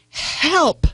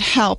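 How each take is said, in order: First: The word is said with strong, urgent intensity. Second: The word is said in a plain, calm way. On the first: "It's that intensity, intensity of help" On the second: "It's not help"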